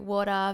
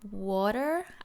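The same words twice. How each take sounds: First: It is said in an Australian accent. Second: It is said in an American accent. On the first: "Australians say water very differently" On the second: "Americans say water"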